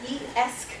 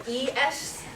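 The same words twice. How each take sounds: Both takes have the same delivery.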